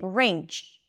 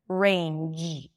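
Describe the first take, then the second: First: The word ends in a voiceless 'ch' sound. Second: The word ends in a voiced 'j' sound. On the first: The speaker calls it wrong. "substituting the j at the end in range to a ch sound" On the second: The speaker calls it right. "feel your vocal cords vibrating at the end"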